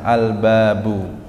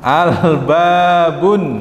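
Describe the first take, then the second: First: The word ends on a plain u vowel. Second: The word ends with an added n sound. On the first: The speaker calls it right. "harusnya dhammah biasa" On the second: The speaker calls it wrong. "saya apa namanya ucapkan al-babun, ... salah karena ujungnya berharokat tanwin"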